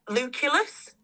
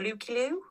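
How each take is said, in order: First: The name ends with an audible S sound. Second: The name ends without any S sound. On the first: The speaker calls it wrong. "I might be saying this wrong" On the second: The speaker calls it right. "you're not supposed to pronounce the S"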